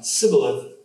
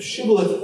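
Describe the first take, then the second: First: Sibboleth with a thin s in place of sh, SIB-bo-leth; Ephraimite mispronunciation. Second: Shibboleth with a full sh at the start, SHIB-bo-leth; correct sh sound. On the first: Preacher imitating the Ephraimite slip, s for sh. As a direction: drop the sh in sibboleth to a plain s. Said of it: "but only say sibboleth". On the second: Preacher saying shibboleth the right way, clear sh. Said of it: "not able to say shibboleth". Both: Shown as a demonstration.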